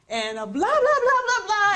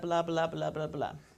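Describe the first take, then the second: First: It is said wildly over the top. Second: It is said at normal volume.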